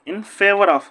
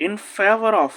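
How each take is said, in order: Both takes have the same delivery.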